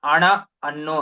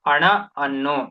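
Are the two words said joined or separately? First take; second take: separately; separately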